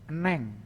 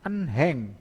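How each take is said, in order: First: The h sound is dropped. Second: The h sound is pronounced. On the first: "dibacanya menjadi"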